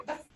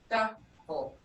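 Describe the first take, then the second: First: "Duff" clipped short, the wrong way; wrong short vowel. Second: "duffel" with the vowel held long; correct long vowel. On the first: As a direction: cut "Duff" off short, as a mistake. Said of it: "if this was short, you would say". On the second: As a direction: stretch the first vowel of "duffel" slowly. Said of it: "not duffel". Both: Shown as a demonstration.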